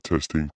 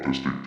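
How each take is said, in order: First: The voice is processed to sound deeper. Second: The voice is processed to sound robotic. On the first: "So we got male, ... It just kind of sounds like deeper" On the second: "and then we got robot, ... I just sound like a clanker"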